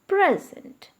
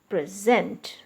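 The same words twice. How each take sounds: First: The stress is on the first syllable. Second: The stress is on the second syllable. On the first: It is a noun meaning a gift. "when you are using it as a noun, always stress the first part" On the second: It is used as a verb. "the stress is shifted to the second part when you use it as a verb"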